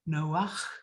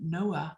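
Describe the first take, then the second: First: The name ends with a throaty rasping sound. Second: The name ends on an open vowel. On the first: The speaker calls it right. "meant to be pronounced Noach with a chet at the end" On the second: The speaker calls it wrong. "Noah is not the Hebrew pronunciation of his name"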